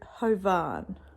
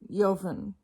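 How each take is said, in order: First: The name begins with an H sound. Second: The name begins without an H sound. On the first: The speaker calls it wrong. "I'm thinking o- Hovan" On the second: The speaker calls it right. "That is the pronunciation of this man's name"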